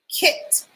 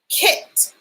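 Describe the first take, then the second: First: Kit whispered with no voice, a bit softer; second whispered Kit; whispered again. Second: Kit breathed out with no voice; whispered kit. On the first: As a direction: whisper Kit once more. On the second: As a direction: whisper the word kit to the class. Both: Shown as a demonstration. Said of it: "What sound do we hear at the beginning of kit".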